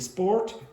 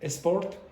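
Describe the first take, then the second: First: The word starts directly with the S sound. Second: An extra vowel is added before the S sound. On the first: The speaker calls it right. "instead of saying sport" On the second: The speaker calls it wrong. "you might say esport"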